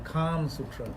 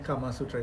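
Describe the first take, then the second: First: No vowel follows the m in the first word. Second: A vowel follows the m in the first word. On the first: The speaker calls it right. "it's the Kam Sutra" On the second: The speaker calls it wrong. "is not the Kama Sutra"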